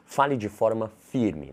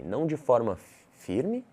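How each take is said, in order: First: FIRME set down firmly, falling at the end; slow, decisive statement that lands down on firme; firm command intonation. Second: FIRME lifted into a question, rising at the end; slow, higher, unsure rise on firme; doubtful intonation. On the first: Coach showing students how a command sounds, firm falling tone. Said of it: "Você entende como muda?". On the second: Coach showing students how doubt sounds, questioning rise on firme. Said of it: "Uma entonação de dúvida". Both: Shown as a demonstration.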